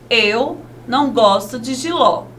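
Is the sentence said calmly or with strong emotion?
calmly. It is said in a calm, neutral way. It is a plain statement of fact. "Agora com ponto final"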